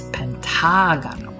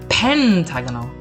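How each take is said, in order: First: The stress falls on the 'ta' syllable. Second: The stress falls away from the 'ta' syllable. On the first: The speaker calls it right. "it's pentagano. Those accents kind of try to help us out there" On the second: The speaker calls it wrong. "we don't say pentagano"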